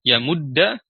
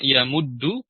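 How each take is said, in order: First: The word ends in an a vowel. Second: The word ends in an u vowel. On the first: "bisa dibaca fathah" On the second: "bisa dibaca domah"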